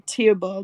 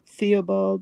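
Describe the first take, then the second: First: The name begins with a plain T sound. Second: The name begins with a TH sound. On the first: The speaker calls it right. "they would say" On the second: The speaker calls it wrong.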